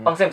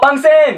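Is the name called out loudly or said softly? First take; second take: softly; loudly. First: The name is said at a quiet conversational volume. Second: The name is called out in a loud voice. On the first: The listener is close by. The speaker calls it right. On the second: The listener is treated as far away. The speaker calls it wrong.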